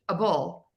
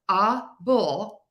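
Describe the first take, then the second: First: It is said quickly and naturally. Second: It is said slowly and carefully. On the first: "how I'm actually pronouncing it" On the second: "my slow example"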